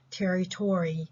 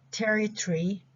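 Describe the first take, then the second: First: TERRITORY with a full "-tory" ending; American pronunciation. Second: TERRITORY squeezed to "TERR-i-tree"; reduced pronunciation. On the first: Teacher showing students the American English form, American pronunciation. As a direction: sound out "territory" American-style, ending "TOR-ee". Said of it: "American English". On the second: Teacher reviewing reduced words with students, reduced pronunciation. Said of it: "So we reduce this again". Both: Shown as a demonstration.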